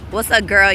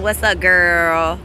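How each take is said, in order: First: Said in the usual way. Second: Sarcastic greeting. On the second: Real, not acted. Mock greeting to a watching rival.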